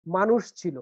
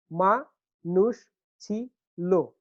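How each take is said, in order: First: Said in the usual way. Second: "মা নুষ ছি লো" slowly, four separate syllables. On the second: Shown as a demonstration. Teacher breaking down the last foot, syllable by syllable. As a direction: count out মা, নুষ, ছি, লো with pauses. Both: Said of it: "চার মাত্রা একটা পর্ব".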